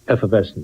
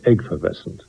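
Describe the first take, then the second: First: The word begins with a plain "eff" sound. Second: The word begins with an "egg" sound. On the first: This is the usual pronunciation. "Instead of saying effervescent" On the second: This is an actor's quirky way of saying it. "he'd say eggfervescent"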